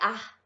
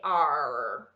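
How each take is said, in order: First: The r is plain, without the tongue curled. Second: The r is made with the tongue curled back. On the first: The speaker calls it wrong. "não é ar" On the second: The speaker calls it right. "Tem um R com a língua dobrada para trás"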